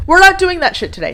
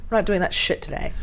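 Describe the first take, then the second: First: High, loud, fast scolding; scolding shout. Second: Said in the usual way. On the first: Real, not acted. Vlogger scolding her blinking lights, high angry shout. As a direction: yell it as a firm order, pitched high.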